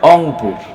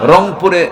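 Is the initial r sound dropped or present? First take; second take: dropped; present. First: The word begins without any r sound. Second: The word begins with a clear r sound. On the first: The speaker calls it wrong. "র নাই।" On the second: The speaker calls it right. "রংপুরে র বলতে পারে না"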